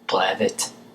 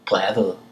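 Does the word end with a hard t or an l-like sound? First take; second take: hard t; l-like. First: The final t is sounded as a clear t. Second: The final t sounds soft, like an l. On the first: "but you may say brevet if you would like" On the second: "brevet ends in a T, and I'm pronouncing it L"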